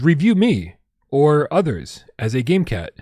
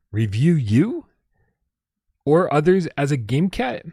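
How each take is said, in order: First: Said in the usual way. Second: Puzzled, slowed-down rising question; baffled repeat. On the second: Real, not acted. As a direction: repeat it as if you can't believe it. Repeating the odd tip, baffled.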